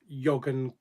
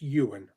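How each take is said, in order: First: It starts with a 'y' sound and has a 'g'. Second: It starts with a vowel and has no 'g'. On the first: The speaker calls it wrong. "We always pronounced it Yogan" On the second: The speaker calls it right. "but it's pronounced Ewan"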